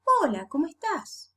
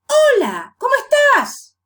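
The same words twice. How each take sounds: First: "Hola, ¿cómo estás?" moderately raised, with a gentle fall; Spanish greeting intonation. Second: "Hola, ¿cómo estás?" very high and loud, falling steeply; exaggerated high swoops on "Hola" and "estás"; English tune on Spanish. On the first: Teacher correcting the greeting, natural Spanish tune. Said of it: "No, you say". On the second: Teacher showing a wrong Spanish greeting, exaggeratedly high and loud. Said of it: "Do you say that? No". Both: Shown as a demonstration.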